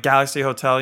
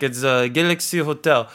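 First: Said in the usual way. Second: Put-on French-accented hotel manager; name the hotel in a French accent. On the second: Hotel manager naming the isolation hotel, French accent. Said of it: "some French guy".

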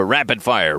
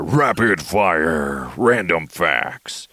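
First: Said in the usual way. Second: Slow, drawn-out segment announcer; mock announcer. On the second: Host launching random facts segment, drawn-out mock announcer. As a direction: stretch it out like a show intro.

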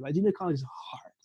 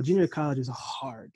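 First: Whispered "Like, junior college is hard.". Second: Said in the usual way. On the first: Shown as a demonstration. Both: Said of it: "Like, don't get it twisted".

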